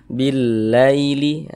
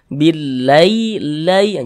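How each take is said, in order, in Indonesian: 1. Suku kata terakhir diucapkan dengan lembut dan halus. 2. Suku kata terakhir ditekan keras dan dipaksakan. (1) "cara membacanya itu mudah, lunak, lembut gitu" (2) "Jangan ditekan-tekan, jangan dibaca billailai"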